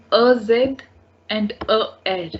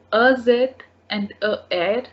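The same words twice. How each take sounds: The two takes are said the same way.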